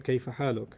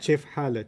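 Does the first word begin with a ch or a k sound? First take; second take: k; ch. First: The first word begins with a k sound. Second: The first word begins with a ch sound. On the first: This is the usual way to say it. "as opposed to" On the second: This is how some regional speakers say it. "they replace the K with a C H"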